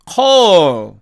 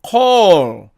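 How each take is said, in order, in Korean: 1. 마지막 L은 분명하고 완전하게 발음됩니다. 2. 마지막 L은 분명하고 완전하게 발음됩니다.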